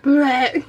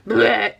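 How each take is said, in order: First: A second mock gag, cut with laughter; laughing retch. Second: Mock gag noise through laughter; laughing retch. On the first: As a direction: gag again, still giggling. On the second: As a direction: make a playful vomiting sound while laughing. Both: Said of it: "So I am laughing".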